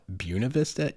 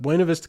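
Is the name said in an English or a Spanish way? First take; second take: English; Spanish. First: The name is said with an anglicized pronunciation. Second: The name is said with a Spanish pronunciation. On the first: The speaker calls it wrong. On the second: The speaker calls it right.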